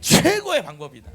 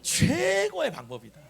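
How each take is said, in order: First: Very loud shout on 최고의; forceful repeat-after-me. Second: High, loud, drawn-out proclamation; repeat-after-me call. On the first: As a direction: belt out 최고의, then drive through to the end. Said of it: "다시". (최고의를 크게 외치며 선창) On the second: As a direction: stretch 최고의 high and long. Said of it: "한번 따라합시다". (최고의를 높고 길게 끌며 선창) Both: Shown as a demonstration.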